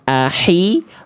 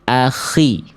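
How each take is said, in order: First: The middle consonant is a light breathy h. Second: The middle consonant is a rasping throaty kh. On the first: The speaker calls it wrong. "Bukan ahi" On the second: The speaker calls it right. "tapi akhi"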